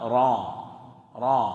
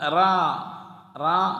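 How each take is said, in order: First: The r sound is heavy and resonant. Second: The r sound is light and thin. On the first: The speaker calls it right. "ആ മുഴക്കം വരണം. അതാണ് തഫ്ഹീം" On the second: The speaker calls it wrong. "അല്ലാതെ റാ റാ അല്ല"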